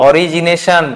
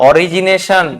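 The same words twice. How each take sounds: No difference in how they are said.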